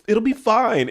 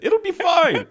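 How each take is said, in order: First: It is said in the speaker's plain accent. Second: It is said in a Scottish accent.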